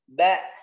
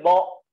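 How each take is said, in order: First: The syllable sounds thin with a light vowel. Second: The syllable sounds thick with a dark vowel. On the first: The speaker calls it right. "suaranya menipis" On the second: The speaker calls it wrong. "tidak boleh bo"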